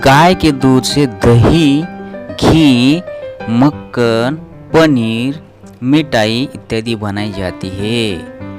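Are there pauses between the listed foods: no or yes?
yes. Short pauses separate each listed food. The speaker calls it right. "इस तरीके से पढ़ना है, किस तरीके से जो अभी अभी मैंने पढ़ा है"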